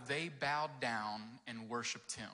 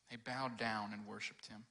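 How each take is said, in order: First: "They Bowed Down and Worshiped Him." read slowly, each word set apart; slow title reading. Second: Said in the usual way. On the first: Shown as a demonstration. Pastor announcing the title to the kids, slow and deliberate.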